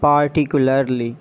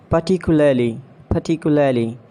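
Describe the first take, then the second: First: "Particularly" as PAR-ti-kyu-lar-lee; mispronounced particularly. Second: "Particularly" as puh-TIK-yu-luh-lee; British pronunciation. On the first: Acted. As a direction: sound every R in "Particularly". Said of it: "you have to correct me". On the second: Shown as a demonstration. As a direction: drop the Rs in "Particularly". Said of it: "exact pronunciation according to the British".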